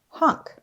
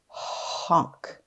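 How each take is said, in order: First: The word is said quickly as one unit. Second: The word is stretched out slowly, sound by sound. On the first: "Say it fast" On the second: "Tap and stretch"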